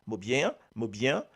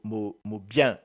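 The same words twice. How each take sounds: First: "bien" stretched into two syllables, "bi-yen"; "mot bien" with a two-syllable "bi-yen". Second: "bien" said as a single syllable, "byen"; "mot bien" with a one-syllable "bien". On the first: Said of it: "avec ce deux syllabes là". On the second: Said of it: "avec une seule syllabe bien". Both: Shown as a demonstration.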